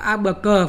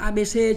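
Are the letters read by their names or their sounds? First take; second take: sounds; names. First: Each letter is read by its sound. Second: Each letter is read by its name. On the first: "đọc theo phát âm thì là khác" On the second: "đọc theo tên chính thức là khác"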